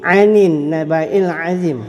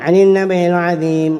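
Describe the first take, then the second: First: It is recited slowly with the long vowel held. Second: It is recited fast with the long vowel shortened. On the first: The speaker calls it right. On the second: The speaker calls it wrong.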